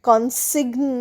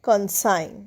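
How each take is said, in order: First: A hard g sound is heard before the n. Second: No g sound is heard; it ends like sign. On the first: The speaker calls it wrong. "কনসিগন নয়" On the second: The speaker calls it right. "জি এর উচ্চারণ হচ্ছে না"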